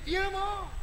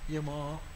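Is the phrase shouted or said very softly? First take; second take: shouted; softly. First: It is shouted loudly and harshly. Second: It is said so softly it is barely audible. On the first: The child is angry at the mother. The speaker calls it wrong. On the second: The son is afraid of raising his voice to his mother. The speaker calls it right. "dengar tak dengar cakap"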